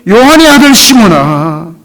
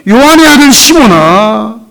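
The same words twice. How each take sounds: The two takes are said the same way.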